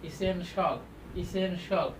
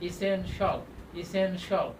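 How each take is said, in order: The two takes are said the same way.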